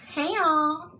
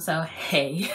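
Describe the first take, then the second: First: It is said in a very high voice. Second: It is said in her normal, lower voice.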